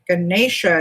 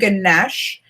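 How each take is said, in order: First: The name ends with a final vowel syllable. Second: The name ends on the sh sound. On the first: This is how others say it. "Ganesha is how they're saying" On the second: This is how the speaker usually says it. "I always say Ganesh"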